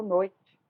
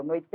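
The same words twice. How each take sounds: First: Slow "noite", stressed on "noi", trailing into a weak "tchi"; natural unstressed ending. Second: "noite" as noi-TÊ, the last syllable sounded in full; wrong stressed ending. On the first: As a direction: stretch "noi" and let the "te" of "noite" fade. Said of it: "eu falo noite". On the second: Teacher shows what nobody says, "noite" as noi-TÊ. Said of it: "eu não falo noite". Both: Shown as a demonstration.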